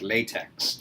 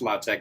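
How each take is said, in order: First: It sounds like the rubber material latex. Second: It sounds different from the rubber material. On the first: The speaker calls it wrong. "it spelled like latex" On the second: The speaker calls it right. "It's it's pronounced LaTeX"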